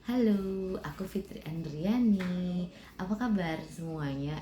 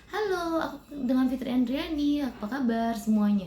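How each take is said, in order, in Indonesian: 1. Salam ini diucapkan dengan tempo lambat. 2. Salam ini diucapkan dengan tempo cepat. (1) "Itu cara intonasi yang lambat" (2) "Itu cara intonasi yang cepat"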